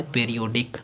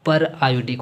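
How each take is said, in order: First: पीरियोडिक said as one joined word; wrong reading. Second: पर आयोडिक said as two words; split pronunciation. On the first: Teacher ruling out the misreading, पीरियोडिक as a single word. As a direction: run पीरियोडिक together without a split. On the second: Teacher answering their own question on the name, पर आयोडिक in two parts. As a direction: keep पर apart from आयोडिक. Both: Shown as a demonstration. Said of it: "पीरियोडिक नहीं होता है".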